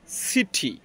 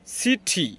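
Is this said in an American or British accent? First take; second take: British; British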